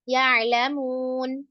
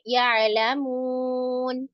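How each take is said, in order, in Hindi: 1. अंतिम न से पहले का स्वर सामान्य लंबाई का है। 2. अंतिम न से पहले का स्वर लंबा खींचा हुआ है। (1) "सिंपल" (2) "लंबा और करना चाहती हैं कर सकती हैं"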